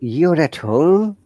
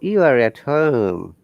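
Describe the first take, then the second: First: It sounds surprised. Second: It sounds like a certain statement. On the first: The speaker did not expect it. "that is surprise" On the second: The speaker already knows it. "this tone indicates that I'm certain you're at home"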